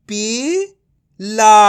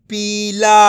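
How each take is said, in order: First: पीला split into a drawn-out, rising पी, a pause, then ला; syllable by syllable. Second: Said in the usual way. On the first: Shown as a demonstration. Teacher breaking up a word for learners, syllable by syllable. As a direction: sound out पीला very slowly in two separate parts. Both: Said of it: "तो मिलके बन जाएगा".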